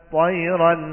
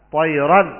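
No difference in how they are said.

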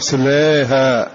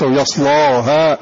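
First: The vowel is raised slightly toward e. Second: The L is heavy and the vowel is open. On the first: "وإذا قللته يصلاها" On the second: "وإذا غلظت يصلاها يكون مع الفتح"

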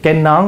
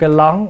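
First: The word begins with an N sound. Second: The word begins with an L sound. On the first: The speaker calls it right. "Hễ N ổng ra L mà L ổng ra N" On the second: The speaker calls it wrong. "Cái nón ổng kêu cái lón"

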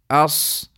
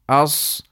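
The two takes are said the same way.

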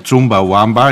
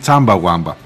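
First: The first vowel sounds like 'oo'. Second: The first vowel sounds like 'ah'. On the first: This is the way the speaker grew up saying it. The speaker calls it wrong. "έτσι το λέμε εμείς" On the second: This is how the band members call themselves. The speaker calls it right. "πως αποκαλούνται είναι Τσάμπα Ουάμπα"

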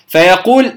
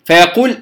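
No difference in how they are said.

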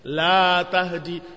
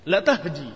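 First: The vowel in the first word is long. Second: The vowel in the first word is short. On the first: It denies that guidance can be given. "lamnya panjang dibacanya" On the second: It affirms that guidance is truly given. "lamnya pendek"

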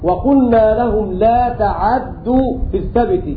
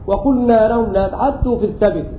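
First: The ain has a full a-vowel, doubled d. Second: The ain has a shortened, partial vowel. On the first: "بفتح العين وتشديد الدال" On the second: "الاختلاس معناه هو الإتيان بثلثي الحركة"

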